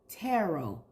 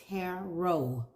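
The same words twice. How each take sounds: First: The final T is silent. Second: The same.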